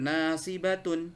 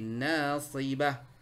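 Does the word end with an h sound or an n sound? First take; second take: n sound; h sound. First: The word ends with a full -tun sound. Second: The word ends with a silent-h stop. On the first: This is the full form when reading on. "tulisannya seperti nasibatun" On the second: This is the form when stopping at the end. "Ketika dia waqaf maka dia berubah jadi apa? Ha sakinah jadi nasibah"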